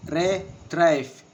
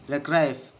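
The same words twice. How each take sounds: First: Retrieve drawn out as re-trieve, second beat stressed; slower, syllables apart. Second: Said in the usual way. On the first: Shown as a demonstration. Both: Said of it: "And the two syllables".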